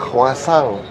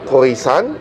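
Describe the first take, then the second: First: The word is pronounced in the French way. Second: The word is pronounced the way it's spelled. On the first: The speaker calls it right. "bacanya croissant" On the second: The speaker calls it wrong. "Anda bilang itu croissant, di, diprotes oleh orang Perancis"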